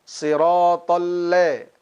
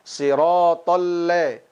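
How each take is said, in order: First: The vowel in 'la' shifts toward an 'e' sound. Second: The same.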